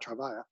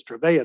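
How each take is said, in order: First: Long I in the middle of Trevia, softly truh-VYE-uh. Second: Long A in the middle of Trevia, truh-VAY-uh. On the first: Lecturer showing the rejected name, Trevia as truh-VYE-uh. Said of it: "He makes a big point of saying it's Trevia". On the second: Lecturer showing pharmacists the name insisted on, Trevia as truh-VAY-uh. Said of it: "He makes a big point of saying it's". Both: Shown as a demonstration.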